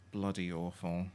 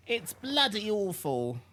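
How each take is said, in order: First: Said in the usual way. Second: High, slow British "bloody awful", clipped BLUD-ee; posh British accent. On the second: Shown as a demonstration. Mocking the fake British voice, a hammy British accent. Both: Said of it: "Said in the most British way possible".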